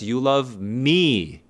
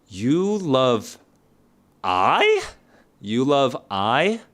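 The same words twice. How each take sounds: First: You love me said slowly, leaning on me; slow correct form. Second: You love I said slowly with a questioning rise on I; mock-doubtful wrong form. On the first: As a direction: give the right answer slowly and firmly. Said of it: "No, that is not grammatically correct". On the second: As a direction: test the wrong version with a puzzled rise. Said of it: "Is this grammatically correct?". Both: Shown as a demonstration.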